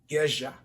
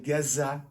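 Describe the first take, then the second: First: The middle consonant is a zh sound. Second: The middle consonant is a plain z sound.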